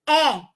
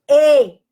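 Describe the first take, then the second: First: The vowel is said with an open sound. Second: The vowel is said with a closed sound. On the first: "o som é aberto" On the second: "o som é fechado"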